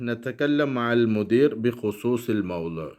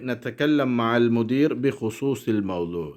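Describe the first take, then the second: No difference in how they are said.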